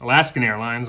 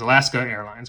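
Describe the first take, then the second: First: An n sound is added after Alaska. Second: No n sound is added after Alaska. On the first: This is the name as people remember it. The speaker calls it wrong. "people remember Alaskan Airlines" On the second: This is the actual name. The speaker calls it right. "It was just Alaska Airlines. They say they never had an end"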